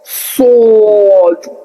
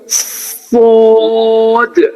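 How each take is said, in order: First: The letter is said with rounded lips. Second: The letter is said with unrounded lips. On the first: The speaker calls it wrong. "होठों को भी गोल करते हैं ... ये भी बिल्कुल गलत है" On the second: The speaker calls it right. "होंठ बिल्कुल अपनी जगह रहने चाहिए"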